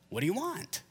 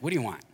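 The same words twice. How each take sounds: First: It sounds caring and sincerely curious. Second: It sounds impatient and dismissive.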